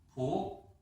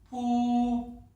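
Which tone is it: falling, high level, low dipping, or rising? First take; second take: rising; high level. First: The pitch rises from mid to high. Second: The pitch stays high and level. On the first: "이성" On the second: "먼저 일성부터 들려드리겠습니다"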